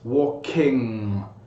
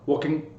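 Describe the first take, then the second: First: The ending is a longer, voiced nasal ng sound. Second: The ending is cut short with a glottal stop. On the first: The speaker calls it right. "it may be a little bit longer than you think it is" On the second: The speaker calls it wrong. "cut the ing sound short ... almost like a glottal stop"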